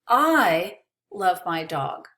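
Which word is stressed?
I. The word I carries the emphasis. Someone else may not love the dog. "Maybe you don't love my dog, but I do"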